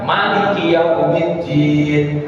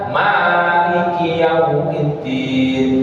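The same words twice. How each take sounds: First: The first vowel is said short. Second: The first vowel is held for two beats. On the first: God reigns as king over the day of judgement. "yang merajai hari pembahasan" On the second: God controls the day of judgement. "yang menguasai hari pembahasan"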